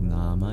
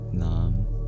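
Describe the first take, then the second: First: The word ends with a short final vowel. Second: The word ends on a consonant, no final vowel. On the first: This is the older Sanskrit form. "Sanskrit used to pronounce the schwas" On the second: This is the Hindi form. "with the schwa deleted"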